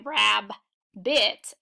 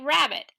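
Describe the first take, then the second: First: Two separate B sounds split the word. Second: A single B sound joins the syllables. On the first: The speaker calls it wrong. "I don't say rab bit" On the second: The speaker calls it right. "I say rabbit"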